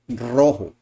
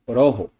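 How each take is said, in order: First: The first R is strongly rolled. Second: The first R is a single tap. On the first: The speaker calls it right. "we say rojo" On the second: The speaker calls it wrong. "We don't say"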